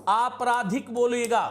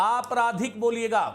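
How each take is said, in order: The two takes are said the same way.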